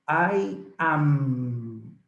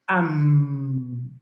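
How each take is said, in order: First: It is said as two full words. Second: It is said as one contracted word. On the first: "the correct conjugation of the verb be is I am" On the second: "you can also use the contraction"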